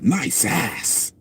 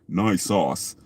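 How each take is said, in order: First: It is said with an American short vowel. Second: It is said with a British long vowel. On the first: It sounds sincere and as it should. The speaker calls it right. "but nice ass. ... That sounds right" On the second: It sounds condescending, as if not really meant. The speaker calls it wrong. "we say nice sauce. It sounds like you're being like condescending"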